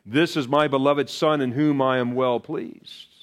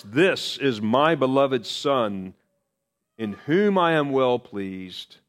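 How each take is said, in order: First: Said in the usual way. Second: Slow, weighty, every word set apart; solemn divine pronouncement. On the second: Acted. Preacher voicing God from the cloud, slow and solemn. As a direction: lay down the Father's words slowly.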